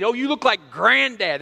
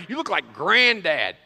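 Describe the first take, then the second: First: Said in the usual way. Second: "granddad" with the grand drawn out and leaned on, slower; stress on grand. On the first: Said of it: "They say". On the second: Shown as a demonstration. Children teasing their father: "granddad" with a leaned-on, slow grand. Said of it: "They emphasis on the grand".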